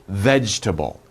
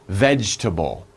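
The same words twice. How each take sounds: Both takes have the same delivery.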